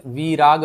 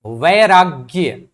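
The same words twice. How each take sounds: First: विराग with i in place of ai, ending on plain g; worn-down vowel. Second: वैराग्य slow and loud, long ai and final gya; full original form. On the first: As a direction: say विराग with the first vowel reduced to i. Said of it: "एकार जो है धीरे धीरे इकार में बदल गया". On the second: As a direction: draw out वैराग्य with every sound intact. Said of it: "विराग बन गया". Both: Shown as a demonstration.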